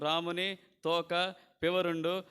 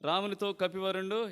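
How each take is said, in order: First: The break falls after 'toka', before 'pivarundu'. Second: The break falls after 'ramunito', before 'kapivarundu'. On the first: It sounds like it is about Rama's tail. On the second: The monkey chief spoke to Rama.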